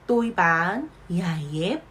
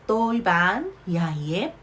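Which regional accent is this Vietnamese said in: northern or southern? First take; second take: southern; southern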